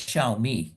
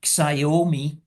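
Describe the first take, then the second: First: The name is said with a Chinese pronunciation. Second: The name is said with a European pronunciation. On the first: This is how the company itself says the name. "they pronounce it as Xiaomi" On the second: This is how outsiders say the name. "we would pronounce it like Xiaomi"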